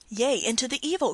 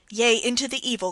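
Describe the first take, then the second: First: A youth's anguished cry, raised; a young man crying out in despair; cried out. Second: The youth's cry, pressed harder and louder; a young man crying out his despair a second time; cried out again. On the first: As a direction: cry the words out in torment. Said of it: "cried the youth". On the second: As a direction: cry it out once more, urging. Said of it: "cried the youth once more". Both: A narrator's reading.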